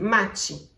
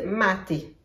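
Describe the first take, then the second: First: The t is pronounced as a ch sound. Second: The t is a crisp, plain t sound. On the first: This is how people in Rio say it. "Si vous êtes à Rio, on dit machi, avec un T qui est un tch" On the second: This is how people in the south say it. "si vous êtes dans le sud, les gens disent maté, avec un T sec"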